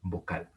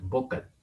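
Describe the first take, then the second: First: Vocal said vo-CAL, weight on CAL; stress on last syllable. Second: Vocal misstressed as VO-cal, weight on VO; stress on first syllable. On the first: Teacher showing students how we do say it, stress on last syllable. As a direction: land on the final syllable of vocal. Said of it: "decimos ayer". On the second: Teacher showing students what we don't say, stress on first syllable. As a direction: hit the VO of vocal, let cal go light. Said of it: "no decimos vocal". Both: Shown as a demonstration.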